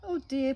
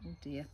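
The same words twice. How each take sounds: First: High, louder sighing oh dear; a sigh voiced like a parrot; louder, higher oh dear. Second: Said in the usual way. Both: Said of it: "Polly sighed".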